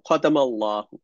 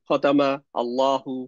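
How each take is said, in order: First: The two words are joined into one sound. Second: The two words are said apart, separately. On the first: It can sound like one unfamiliar word. "এটার সাথে ধরেন এটা মিলিয়ে পড়ি" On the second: Each word can be picked out clearly. "প্র্যাকটিসের জন্য এভাবে বলবেন"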